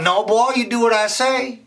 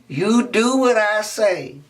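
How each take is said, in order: First: High, loud stern order; stern teacher. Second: Slow emphatic teacher; slow stern repeat. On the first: Miss Sarah refuses Raymond, stern and loud. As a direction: lay down the law. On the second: Miss Sarah repeats the order, slow and firm. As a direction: drag each word out firmly. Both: Acted.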